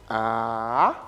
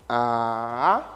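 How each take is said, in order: No difference in how they are said.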